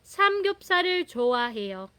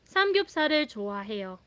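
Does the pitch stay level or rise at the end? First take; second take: level; level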